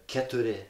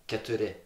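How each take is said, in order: The two takes are said the same way.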